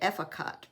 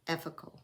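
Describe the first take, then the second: First: The final t is pronounced. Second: The final t is silent. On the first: It is read the way it is spelled. The speaker calls it wrong. "I want to say it Efficot because it's A F I C O T" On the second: It is said the French way. The speaker calls it right. "but it's French"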